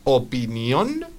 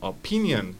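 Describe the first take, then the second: First: Opinión stressed on the last syllable, -ÓN; Spanish end stress on opinión; stress on final syllable. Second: Opinion stressed on the middle syllable, o-PIN-ion; English stress on the second syllable of Opinion; stress moved forward. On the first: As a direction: draw out opinión with the accent on ÓN. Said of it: "el acento va a moverse de nuevo una, una sílaba". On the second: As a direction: hit PIN in Opinion, letting the end fall. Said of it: "Fíjate cómo me llevo la entonación". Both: Shown as a demonstration.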